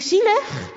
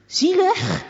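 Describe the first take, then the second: First: High, disbelieving repeat; indignant echo. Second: High, loud indignant question; incredulous. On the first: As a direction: echo the word, not buying it. Girl repeats in thought. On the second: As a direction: throw the word back in disbelief. Girl surprised at father. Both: A narrator's reading.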